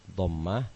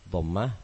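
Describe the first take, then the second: Both takes have the same delivery.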